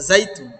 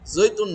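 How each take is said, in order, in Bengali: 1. প্রথম সিলেবলটি 'zai'-এর মতো শোনাচ্ছে। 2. প্রথম সিলেবলটি 'zoi'-এর মতো শোনাচ্ছে। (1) "না জাইতুন" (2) "জৈতুন না"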